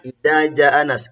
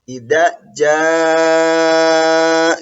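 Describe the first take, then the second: First: The vowel in 'jaa' is cut short. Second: The vowel in 'jaa' is held long. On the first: The speaker calls it wrong. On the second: The speaker calls it right. "dibaca panjang sebanyak enam harokat"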